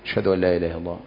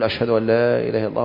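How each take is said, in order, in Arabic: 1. تُقال العبارة بصوت منخفض وهادئ. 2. تُقال العبارة بصوت عالٍ وقوي. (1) "سرا بصوت تخافت به" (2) "ثم تقول"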